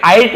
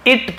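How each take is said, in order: First: "आइट" with an "eye" vowel; long I misreading. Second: "इट" with short "ih"; short I reading. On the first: Teacher warning against this reading, "आइट" with "eye". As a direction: misread it as "आइट", like night without n. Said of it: "आइट नहीं पढ़ेंगे हम". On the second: Teacher correcting the reading of it, "इट" with short i. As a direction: say it as "इट", short vowel. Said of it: "इसे इट पढ़ेंगे". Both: Shown as a demonstration.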